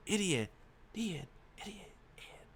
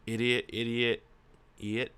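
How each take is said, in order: First: Word repeats, fading away softly; dying-away echo of a shout; mimicked echo. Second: Said in the usual way. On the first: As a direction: echo it across the room, ever fainter. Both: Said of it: "I shout across through the room".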